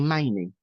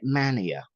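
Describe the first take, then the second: First: The name ends with an 'ee' sound. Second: The name ends with a 'ya' sound. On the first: The speaker calls it right. "but it's actually Manie" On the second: The speaker calls it wrong. "people are insistent on calling it Mania"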